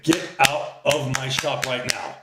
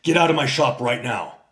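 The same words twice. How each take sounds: First: Higher, slow, drawn-out put-on voice; a hammed-up imitation of the shop owner's order; mock sassy woman. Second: Louder, firm order; a firm "Get out" with a falling close; retold order. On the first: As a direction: drag it out like an offended shop girl. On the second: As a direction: tell him to leave. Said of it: "And he says".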